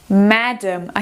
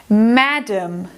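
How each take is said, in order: Both takes have the same delivery.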